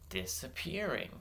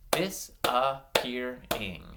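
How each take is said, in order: First: DISAPPEARING as one smooth, softer word; blended smoothly. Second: DISAPPEARING in slow, separated syllables. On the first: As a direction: join up "Disappearing" with no gaps. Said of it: "make them a little bit smoother". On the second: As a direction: clap out "Disappearing", pausing between syllables. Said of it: "blend the syllables into one word". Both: Shown as a demonstration.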